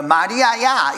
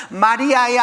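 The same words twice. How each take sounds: First: Said in the usual way. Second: 마리아야 in a Gyeongsang accent, a bit louder. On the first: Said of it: "경상도 버전으로 하면". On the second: Shown as a demonstration. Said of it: "경상도 버전으로 하면 뭐라고 그러는 거야".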